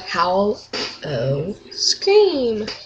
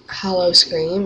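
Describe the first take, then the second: First: The first part sounds like the word howl. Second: The first part sounds like the word hollow. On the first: The speaker calls it right. "It's called Howl O Scream" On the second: The speaker calls it wrong. "It's not Hollow"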